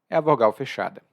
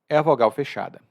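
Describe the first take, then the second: No difference in how they are said.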